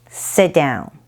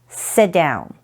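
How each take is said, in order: First: The T at the end of sit is dropped. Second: The T at the end of sit is dropped.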